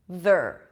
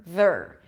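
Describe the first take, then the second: No difference in how they are said.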